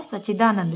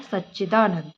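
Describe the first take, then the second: First: "सच्चिदानंद" with single ch, "sachidanand"; wrong single ch. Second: "सच्चिदानंद" with doubled ch, "sach-chidanand"; correct double ch. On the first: Teacher shows the mistake, single-ch "सच्चिदानंद". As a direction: drop the double च in "सच्चिदानंद". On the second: Teacher adds the half cha, doubled-ch "सच्चिदानंद". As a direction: dwell on च्च in "सच्चिदानंद". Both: Shown as a demonstration. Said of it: "पूरे चा से पहले आधा चा".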